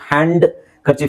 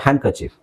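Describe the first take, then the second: First: A d sound is heard after the first vowel. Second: No d sound is heard after the first vowel. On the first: The speaker calls it wrong. "ಹೇಳೋ ಅವಶ್ಯಕತೆ ಇಲ್ಲ" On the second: The speaker calls it right. "ಇಲ್ಲಿ ಡಿ silent ಆಗುತ್ತೆ"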